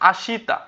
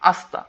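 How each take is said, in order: First: The vowel between sh and t is pronounced. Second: The vowel between sh and t is dropped. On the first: "আশিতা না হয়ে কি হবে" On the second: "উচ্চারণটা একটু ভিন্ন হবে"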